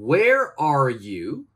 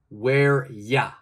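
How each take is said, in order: First: The words 'are you' are said in full. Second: The words 'are you' are reduced to 'ya'.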